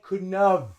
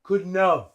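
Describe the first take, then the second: Both takes have the same delivery.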